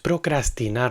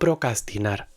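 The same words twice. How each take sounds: First: The word has an R after the 'c'. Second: The word has no R after the 'c'. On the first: The speaker calls it right. "es procrastinar" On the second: The speaker calls it wrong. "sin la R que hay en medio de la palabra"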